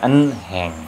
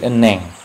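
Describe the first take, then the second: First: The h sound is pronounced. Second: The h sound is silent. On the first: The speaker calls it wrong. "bukan enheng" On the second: The speaker calls it right. "jadi eneng"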